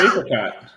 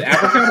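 First: "apricot" opening on a long AY sound. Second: "apricot" opening on a short AP, as in cat. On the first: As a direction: say "apricot" starting like "ape". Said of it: "is it apricot or apricot". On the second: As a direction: say "apricot" starting with the a of "apple". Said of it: "how you can't pronounce things right". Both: Shown as a demonstration.

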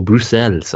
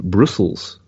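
First: Bruxelles said the French way; bad European accent. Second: Said in the usual way. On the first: Shown as a demonstration. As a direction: give Bruxelles a rough French pronunciation, ending on "-sell". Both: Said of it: "my European accent is as bad".

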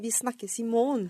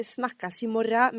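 First: "vi snakkes i morgen" with "morgen" said as standard "måårn"; norskkurs pronunciation. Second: "snakkes i morgen" drawn out slowly, dialect "snakkas i morra"; Vestfold pronunciation. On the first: Learner showing the course form, "morgen" said as "måårn". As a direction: close "morgen" on an n, no "-ra". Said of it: "jeg fant ut på norskkurs". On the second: Learner showing her husband's wrong form, "morgen" said as "morra". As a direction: end "morgen" on a broad "-ra", as in Vestfold. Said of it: "at det sies ikke". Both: Shown as a demonstration.

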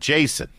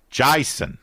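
First: Said in the usual way. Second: Mock Australian "Jason", first vowel widened to "eye"; put-on Australian accent for the name; joking Australian accent. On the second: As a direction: say "Jason" as "Jye-son", playing at Australian. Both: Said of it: "I was joking with the Australian accent".

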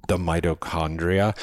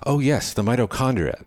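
First: Tentative term with rising end; questioning. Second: High, louder burst of remembering; light up as it comes back; delighted recognition. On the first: Man recalls cell parts, questioning. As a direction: float it as a question. Unsure guess, then recognition. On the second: Young man remembers his biology, delighted recognition. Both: A narrator's reading.

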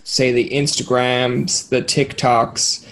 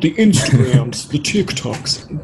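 First: Said in the usual way. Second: Slow, slightly hammed old-timer voice; lightly voiced ninety-year-old; mock old man. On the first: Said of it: "I sound like I'm a ninety-year-old". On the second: Shown as a demonstration. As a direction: say it like a grandpa puzzled by apps. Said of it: "like, a ninety-year-old".

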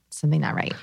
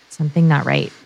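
First: Fading to quiet. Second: Said in the usual way. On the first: Pretend. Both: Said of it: "our subconscious is going".

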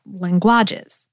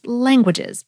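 First: "languages" with the stress pushed off the first syllable, lan-GUA-ges; misplaced word stress. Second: "languages" with the stress on the first syllable, LAN-guages; natural word stress. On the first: Host showing listeners a wrong stress on "languages", late syllable stressed. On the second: Host showing listeners the normal stress of "languages", first syllable stressed. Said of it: "Think of how the word is". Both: Shown as a demonstration.

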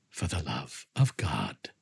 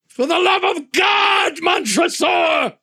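First: Much lower, much softer slow echo; mock him quietly and slowly; cold mocking echo. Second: Much higher, slow anguished shout; desperate cry. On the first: Montresor coldly echoes cry. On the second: Acted. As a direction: scream it out in terror. Fortunato's final desperate cry.

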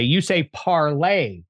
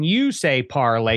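First: "parlay" with the second syllable stressed, par-LAY; imitated pronunciation. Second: Said in the usual way. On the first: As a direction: mimic his "parlay", leaning on LAY. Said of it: "you emphasizing the second syllable". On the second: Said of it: "when you say parlay, you say parlay".

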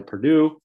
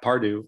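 First: Perdue with an r-coloured "pur" first syllable, PUR-doo; first misspoken name. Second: Pardue with an open "par" first syllable, PAR-doo; corrected name. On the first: Host slips on the player's surname, saying Perdue as PUR-doo. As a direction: says Perdue as PUR-doo before correcting himself. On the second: Host corrects the player's surname to Pardue, said PAR-doo. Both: Shown as a demonstration. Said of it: "Pardue of Winnetka".

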